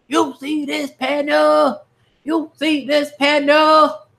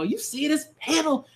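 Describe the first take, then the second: First: "You see this panel?" stretched out slowly, much higher; excited, high and slow. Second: Said in the usual way. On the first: Shown as a demonstration. A reader pointing the viewers at a big panel, in a high, drawn-out hype voice. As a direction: pitch it way up and drag every word.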